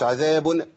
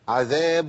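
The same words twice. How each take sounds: First: The final nasal sound is bounced with a jolt. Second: The final nasal sound ends smoothly. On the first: The speaker calls it wrong. "قلقل النون" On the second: The speaker calls it right. "عذاب مش عذاب"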